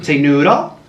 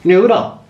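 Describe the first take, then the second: First: Said in the usual way. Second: "Noodle" sung high and loud; sing-song coaxing. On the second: Shown as a demonstration. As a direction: coo "Noodle" up high to the pet.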